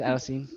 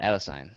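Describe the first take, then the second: First: Adenosine ending like "seen"; ends in -seen. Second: Adenosine ending like "sign"; ends in -sine. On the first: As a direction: say adenosine with an EE at the end, rhyming with "bean". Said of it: "Is it adenosine?". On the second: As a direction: say adenosine with a long I at the end, rhyming with "fine". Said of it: "I, I call it adenosine". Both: Shown as a demonstration.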